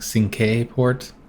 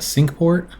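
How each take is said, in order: First: Cinque is said with a Spanish-like pronunciation. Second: Cinque sounds like the English word sink. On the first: "or if it's like Spanish. So it's like" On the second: "I don't know if it's a sink port"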